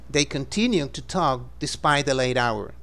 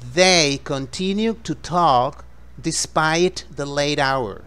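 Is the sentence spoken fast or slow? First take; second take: fast; slow. First: The sentence is spoken at a quicker pace. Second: The sentence is spoken slowly.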